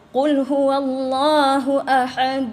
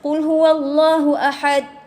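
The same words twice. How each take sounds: First: The final d ends with a clear echoing bounce. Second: The final d ends flat without any bounce. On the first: The speaker calls it right. "kita kita qalqalahkan dia" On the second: The speaker calls it wrong. "sebelum ni saya baca tak ada de, de, de kat ujung"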